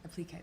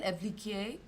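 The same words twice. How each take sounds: First: "Applique" said plainly in English, a-pluh-KAY with no French colouring; English-style applique. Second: "Appliquer" said the French way, ah-plee-KAY with a French r-less ending; French pronunciation. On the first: Retold or imitated. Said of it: "but not with a French accent". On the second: Shown as a demonstration. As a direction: pronounce "Appliquer" like a French word, stress on the last syllable. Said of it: "from the French".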